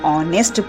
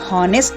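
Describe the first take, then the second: First: The word begins with a vowel sound. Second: The word begins with an h sound. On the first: The speaker calls it right. "आप इसको ऑनेस्ट पढ़ते हो" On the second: The speaker calls it wrong. "आप इसको हॉनेस्ट नहीं पढ़ते"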